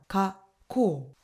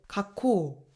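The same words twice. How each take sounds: First: The word has a brief stop mid-word. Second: The word flows on with no stop. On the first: The speaker calls it right. "이렇게 초금에서 멈춰주고 뒤에 발음을 이어서 덧붙여줘야 됩니다" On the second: The speaker calls it wrong. "이렇게 발음하는 게 아니라"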